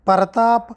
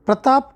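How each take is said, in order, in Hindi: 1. एक अतिरिक्त स्वर शुरुआत को 'pa-ra' में बाँट देता है। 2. पहले के व्यंजन 'pra' के रूप में जुड़े हैं।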